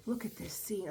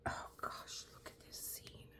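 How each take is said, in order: First: Said in the usual way. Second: Whispered almost silent; awed whisper. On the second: Real, not acted. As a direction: hush it, stunned by the picture. Marveling at the canvas scene.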